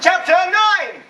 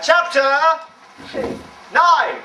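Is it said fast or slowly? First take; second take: fast; slowly. First: It is said quickly and loudly. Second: It is said more slowly and calmly.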